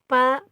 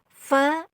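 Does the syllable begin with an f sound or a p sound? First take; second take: p sound; f sound. First: It begins with a p sound from both lips. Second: It begins with an f sound, teeth on lip. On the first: The speaker calls it wrong. "Kalau Sunda itu biasanya pa, pa, pi, pu, padahal itu salah" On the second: The speaker calls it right. "tapi yang benar itu adalah fa"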